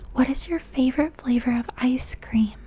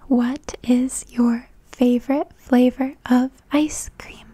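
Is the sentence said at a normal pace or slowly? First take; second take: normal; slowly. First: The sentence is said at normal speed. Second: The sentence is said at slow speed.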